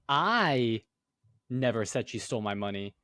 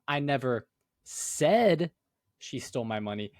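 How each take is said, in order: First: The word "I" carries the main stress. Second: The word "said" carries the main stress. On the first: Someone else might have said it. "you're saying, oh, well, I never said it, but somebody else might have" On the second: It was conveyed some other way, not spoken. "Maybe you like texted it, you know?"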